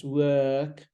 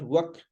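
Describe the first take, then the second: First: "work" held long, no r; correct work. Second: "work" as a quick wuk; mispronounced work. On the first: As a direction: work with a long 'er' vowel. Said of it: "it's work". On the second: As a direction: work with a short vowel, wuk. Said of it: "it's not work". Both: Shown as a demonstration.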